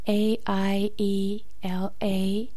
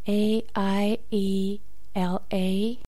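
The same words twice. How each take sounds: The two takes are said the same way.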